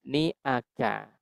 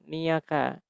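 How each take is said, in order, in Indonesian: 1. Vokal-vokal itu dipisahkan oleh hamzah. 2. Vokal-vokal itu disambung dengan peluncur y. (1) "yang betul adalah niaka" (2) "niaka itu berarti pakai iya"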